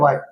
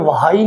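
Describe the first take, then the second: First: It starts with no h sound at all. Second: It starts with a breathy h sound. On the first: The speaker calls it right. "ये क्या होता है, वाई या वाई" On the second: The speaker calls it wrong. "तो ये वाई नहीं होता"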